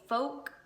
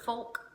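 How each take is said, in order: First: The L sound is silent. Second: The L sound is clearly pronounced.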